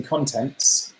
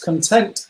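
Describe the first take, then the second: First: "contents" stressed on the first syllable, CON-tents; noun contents. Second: "content" stressed on the second syllable, con-TENT; adjective content. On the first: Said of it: "not content as in contents". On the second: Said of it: "content as in you're feeling content". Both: Shown as a demonstration.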